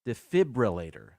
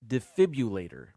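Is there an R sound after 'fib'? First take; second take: Yes; No. First: There is an R sound after 'fib'. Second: There is no R sound after 'fib'. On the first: The speaker calls it right. "But there's an R in there. It's actually pronounced" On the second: The speaker calls it wrong. "People say defibrillator"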